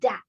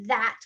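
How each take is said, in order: First: The word begins with a D sound. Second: The word begins with a TH sound.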